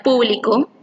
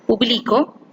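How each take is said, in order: First: Público stressed on PU; público, weight on the opening syllable pu; stress on first syllable. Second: Publico stressed on BLI, ending on a rise; publico, weight on the second syllable, bli; stress on the middle syllable. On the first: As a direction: say público as PÚ-bli-co. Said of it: "en la sílaba pu". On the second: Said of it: "la sílaba tónica es pli". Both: Shown as a demonstration.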